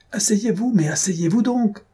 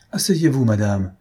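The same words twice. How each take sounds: First: High-pitched urgent call; alarmed cry. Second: Pleading. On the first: Husband to wife standing up in the boat, high alarmed cry. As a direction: cry out much higher, ordering them to sit. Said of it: "Lasolée cria". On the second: D'Étiole to the marquise as the boat tilts, mild pleading. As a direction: beg with a touch of alarm, falling away. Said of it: "supplia d'Étiole". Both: A narrator's reading.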